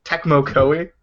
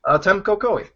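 First: Tecmo Koei with a clear k before m, TEK-mo; corrected name. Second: Temco Koei with m before c, as TEM-co; mispronounced name. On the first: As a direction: say Tecmo properly, k then m. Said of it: "It's Tecmo". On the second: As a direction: say Temco, swapping the c and m. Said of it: "isn't it Tecmo?". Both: Real, not acted.

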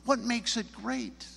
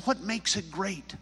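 First: High, slower, probing repeat of a question; prodding question. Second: Higher-pitched quick query; curious question. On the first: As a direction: poke for an answer, drawing it out. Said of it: "poked a little bit and prodded". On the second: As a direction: ask it lightly, pitched up. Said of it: "And I said". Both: Retold or imitated.

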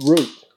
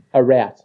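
First: "Route" said like "root"; correct Aussie route. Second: "route" said to rhyme with "out"; mock mispronounced route. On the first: Shown as a demonstration. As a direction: model "Route" with a long oo, falling. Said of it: "That's the word you're after". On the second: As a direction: mimic the wrong "route", vowel as in "rout". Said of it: "talk like a fucking Kiwi".

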